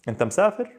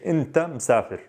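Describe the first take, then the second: First: It is said with the intonation of a question. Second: It is said with the intonation of a statement. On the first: It asks whether you are traveling. "If I want to ask" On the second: We know for a fact you're traveling. "if I say the statement"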